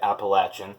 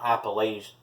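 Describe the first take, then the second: First: The middle syllable sounds like 'latch'. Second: The middle syllable does not sound like 'latch'. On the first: The speaker calls it right. "that is the correct way to say it" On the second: The speaker calls it wrong. "It's not Appalachian"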